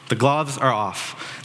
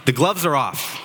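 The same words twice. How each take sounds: First: Slow emphatic repeat. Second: Said in the usual way. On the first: Retold or imitated. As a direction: stretch "The gloves are off." out slowly, each word weighted.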